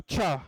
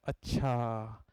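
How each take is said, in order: First: It is said in a harsh, sarcastic tone. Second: It is said in a calm, thoughtful tone. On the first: The listener feels superior and rejects being taught. "थोड़ी कौड़ी tone में बोलता है अच्छा" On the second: The listener understands and is processing the point. "इस tone में बोलता है अच्छा, इसका मतलब ये है कि वो बात को समझ रहा है"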